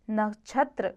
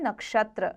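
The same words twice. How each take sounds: First: नक्षत्र with chh for ksh; wrong chh sound. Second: नक्षत्र with a clear ksh; correct ksh sound. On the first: Teacher shows the error, नक्षत्र as nachhatra. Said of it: "अशुद्ध है". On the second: Teacher gives the correct form, नक्षत्र with ksh. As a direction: say नक्षत्र as nakshatra. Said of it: "शुद्ध है नक्षत्र". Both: Shown as a demonstration.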